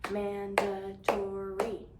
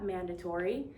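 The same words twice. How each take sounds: First: Very slow, each syllable split apart; drawn-out syllable count; slow syllable clapping. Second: Said in the usual way. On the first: Shown as a demonstration. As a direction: clap it out slowly, syllable by syllable. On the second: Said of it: "I will go like this for you to repeat the word".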